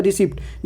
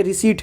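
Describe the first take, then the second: First: रिसिप्ट with the P sounded before the T; wrong reading रिसिप्ट, audible P; common misreading. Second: रिसीट with no P sound, long ee then T; corrected रिसीट, P left silent. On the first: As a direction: say रिसिप्ट as people misread it, pronouncing the P. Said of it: "इसको लोग पढ़ता है". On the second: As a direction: say रिसीट, dropping the P completely. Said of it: "जबकि ये रिसीट है". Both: Shown as a demonstration.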